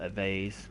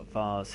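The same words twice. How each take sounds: First: Vase is said with an American accent. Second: Vase is said with a British accent.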